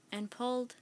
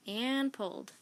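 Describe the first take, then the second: No difference in how they are said.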